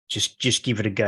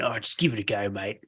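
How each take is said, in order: First: Said in the usual way. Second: A light, quiet Australian "Oh, just give it a go, mate"; Australian accent. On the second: Shown as a demonstration. Host jokingly redoing the guest's motto, light Australian accent. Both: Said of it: "You gotta say that with a really Australian accent".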